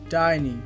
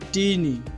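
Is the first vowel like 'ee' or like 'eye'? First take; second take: eye; ee. First: The first vowel sounds like 'eye'. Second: The first vowel sounds like 'ee'. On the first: The speaker calls it right. "এর সঠিক উচ্চারণটি হবে টাইনি" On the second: The speaker calls it wrong. "এটি ভুল উচ্চারণ"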